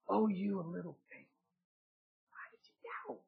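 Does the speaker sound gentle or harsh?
gentle. It is said in a gentle, caring tone. It is tender comfort after a fall. The speaker calls it right. "I believe he said"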